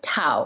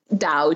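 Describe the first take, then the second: First: The word begins with a T sound. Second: The word begins with a soft D sound. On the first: This is the older traditional form from an outdated spelling system. "The Wei Giles form of pronunciation, which is a much older antiquated system" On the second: This is the modern mainland form that shows the speaker is informed. "the pinyin or the way that the mainland Chinese would pronounce it"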